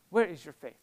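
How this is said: It is said harshly, with an angry tone. The listeners are being scolded for their lack of faith. "a very severe chastisement. Was he really mad and angry and disappointed with them?"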